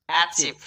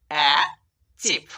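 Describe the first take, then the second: First: Said in the usual way. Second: "uh... চিপ" split by a clear pause; two separate beats. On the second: Shown as a demonstration. Teacher breaking the word into syllables for learners, two separate beats. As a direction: say "uh", stop, then "চিপ". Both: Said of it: "দুই ঝোঁকেই উচ্চারণ করছি".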